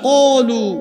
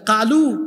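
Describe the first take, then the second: First: The first sound is heavy and deep. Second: The first sound is light and thin. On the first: The speaker calls it right. "সাতটা অক্ষরের উচ্চারণ হলো মোটা মোটা" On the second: The speaker calls it wrong. "ওই ব্যক্তি তো মাখরাজ উচ্চারণ শিখে নাই"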